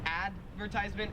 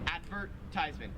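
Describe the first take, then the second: First: The stress is not on the 'vert' syllable. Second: The stress is on the 'vert' syllable. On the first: "in American English, we would say" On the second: "in Australian English, you say ... more emphasis on the vert part"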